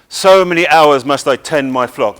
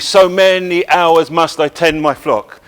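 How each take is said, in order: First: The opening word 'so' is stressed. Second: The opening word 'so' is unstressed. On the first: The speaker calls it right. "the first syllable takes a stress ... That's much more natural" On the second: The speaker calls it wrong. "if it's regular ... but that's not natural"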